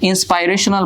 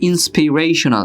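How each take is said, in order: First: The second syllable has an 'eye' vowel. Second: The second syllable has a short 'ih' vowel. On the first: The speaker calls it wrong. "ইন্সপাইরেশনাল বলো তোমরা" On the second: The speaker calls it right. "এটার উচ্চারণ হবে ইন্সপিরেশনাল"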